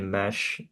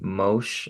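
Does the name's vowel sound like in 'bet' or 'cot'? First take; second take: bet; cot. First: The vowel sounds like the one in bet. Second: The vowel sounds like the one in cot. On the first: Other people pronounce the name this way. "Some people say" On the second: This is believed to be the correct pronunciation. "I believe is how you say it"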